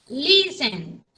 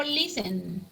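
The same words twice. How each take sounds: First: Listen con fuerza en la primera sílaba, LIS-ten; stress on LIS. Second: Said in the usual way. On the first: Shown as a demonstration. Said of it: "Se le escucha en la, el, en la li". (acento en la primera sílaba de Listen) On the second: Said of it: "dónde le encuentran ustedes la fuerza de voz".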